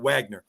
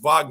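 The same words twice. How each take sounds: First: The name has an English pronunciation. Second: The name has a German pronunciation. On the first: The speaker calls it wrong. "instead of Wagner" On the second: The speaker calls it right. "I said it right. Wagner. He's a German"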